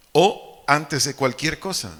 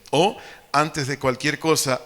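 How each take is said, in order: Both takes have the same delivery.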